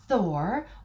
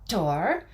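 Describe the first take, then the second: First: The name has an English pronunciation. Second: The name has a Norse pronunciation.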